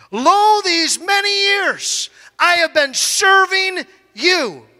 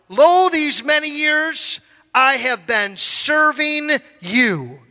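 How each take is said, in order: First: Resentful son. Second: Said in the usual way. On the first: Acted. Older son complaining to father, slow aggrieved whine. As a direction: drag it out like a wronged servant.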